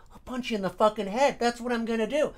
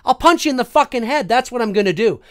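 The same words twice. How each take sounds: First: Softer, held-back replay of an angry threat; hushed mock threat. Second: Loud, indignant retold threat; blustering angry outburst, pitched up; George Costanza. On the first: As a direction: menace him under your voice. Replays his threat as imagined scene. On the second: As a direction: threaten him with forceful, worked-up anger. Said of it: "it was like George Costanza Seinfeld".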